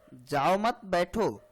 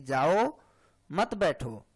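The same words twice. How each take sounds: First: The pause comes right after 'mat'. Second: The pause comes right after 'jao'.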